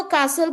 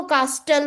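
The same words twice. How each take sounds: First: कासल with no T sound; silent T. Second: कास्टल with the T wrongly sounded; T pronounced. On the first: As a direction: say कासल correctly, leaving the T silent. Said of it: "but T is silent here". (कासल, बिना ट की आवाज़ के) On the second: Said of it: "टी को pronounce करते हो". (कास्टल, ट का उच्चारण करके) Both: Shown as a demonstration.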